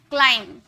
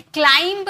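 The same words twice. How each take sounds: First: क्लाइंब ending on m, said as "klaim"; silent b. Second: क्लाइंब with an audible b after the m; sounded final b. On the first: Teacher giving students the model, क्लाइंब with silent b. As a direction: close क्लाइंब on m without any b. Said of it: "क्लाइंब बोलते". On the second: Teacher showing what not to say, क्लाइंब with sounded b. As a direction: release the wrong b at the end of क्लाइंब. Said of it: "नहीं बोलते". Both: Shown as a demonstration.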